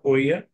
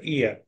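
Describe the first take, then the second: First: The name begins with an 'oh' sound. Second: The name begins with an 'ee' sound. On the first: The speaker calls it wrong. "not Oia" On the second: The speaker calls it right. "rather Ia"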